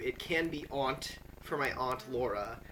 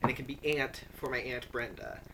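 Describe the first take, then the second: First: "aunt" said with a broad open ah, like "ahnt"; "aunt" with the long ah vowel, for aunt Laura. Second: "aunt" said with a flat a, just like the insect "ant"; "aunt" with the flat short a, for aunt Brenda. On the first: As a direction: say "aunt" to rhyme with "want". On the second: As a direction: say "aunt" to rhyme with "can't". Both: Shown as a demonstration. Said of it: "depends actually on which of my, uh, female older relatives".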